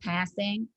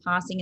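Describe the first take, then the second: First: It is said with an American vowel. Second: It is said with an Australian vowel. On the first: "instead of passing" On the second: "I would say I'm passing"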